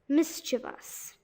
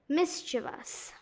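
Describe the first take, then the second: No difference in how they are said.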